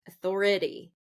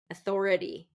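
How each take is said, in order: Both takes have the same delivery.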